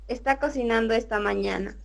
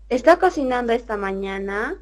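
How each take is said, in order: First: It is read as a flat statement. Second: It is read with a question intonation.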